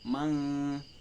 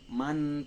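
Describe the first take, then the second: First: The n sound is held with a nasal hum. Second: The n sound is short with no nasal hum. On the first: The speaker calls it right. "tetapi mang" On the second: The speaker calls it wrong. "bukan man"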